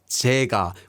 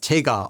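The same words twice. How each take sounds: First: The first consonant is soft and blurred. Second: The first consonant is crisp and clear. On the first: "almost like 제가, with a soft 지읒" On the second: "He says 제가"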